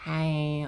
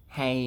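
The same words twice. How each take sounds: First: Lightly put-on higher voice; mock high-pitched greeting. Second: Said in the usual way. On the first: Shown as a demonstration. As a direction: pitch the hey up a little. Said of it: "comes across high pitched". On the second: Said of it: "in my voice".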